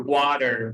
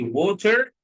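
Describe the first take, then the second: First: Water with an American accent, r sounded at the end. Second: Said in the usual way. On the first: Shown as a demonstration. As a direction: give water an American twang. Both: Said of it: "بالأمريكان accent".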